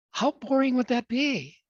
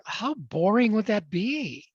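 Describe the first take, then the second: First: Higher, punchier repeat of boring; emphatic repeat. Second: Slow, drawn-out, stretching out boring; slow rhetorical question. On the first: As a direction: hit boring higher the second time. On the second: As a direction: linger on boring, slowly. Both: Shown as a demonstration.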